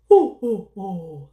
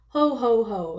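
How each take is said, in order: First: The voice is deep, jolly and chesty. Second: The voice is thin, not deep or chesty.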